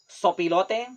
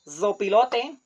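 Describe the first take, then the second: First: The word begins with an s sound. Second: The word begins with a z sound. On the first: This is how Costa Ricans say it. The speaker calls it right. "only S" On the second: This matches the written spelling. The speaker calls it wrong.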